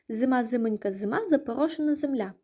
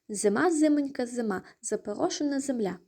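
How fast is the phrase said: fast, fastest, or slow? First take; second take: fastest; fast. First: The phrase is said at the fastest pace. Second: The phrase is said at a faster pace. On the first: "І ще швидше" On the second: "Тепер давайте ще швидше"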